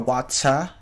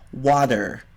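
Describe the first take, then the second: First: The t is a crisp, clear t sound. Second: The t is a quick, d-like flap. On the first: "That's how they would say" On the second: "So we flap our T's"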